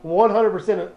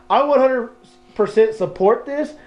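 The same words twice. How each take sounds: First: Said in the usual way. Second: "one hundred" lifted high, "percent support this" slowed; emphatic repeat. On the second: Shown as a demonstration.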